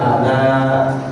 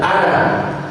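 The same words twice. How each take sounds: First: The final vowel is held long. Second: The final vowel is kept short. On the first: The reading stops at this word. "dibaca waqaf dia berhenti, maka dibaca panjang" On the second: The reading continues past this word. "dibaca wasol dilanjutkan, ... tidak terbaca panjang"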